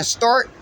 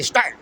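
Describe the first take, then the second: First: Said in the usual way. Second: "start" with a heavy R; Buffalo strong R. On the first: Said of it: "instead of saying". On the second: Shown as a demonstration. Imitating Buffalo speakers, R in "start" leaned on hard. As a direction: lean on the R in "start". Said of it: "they say".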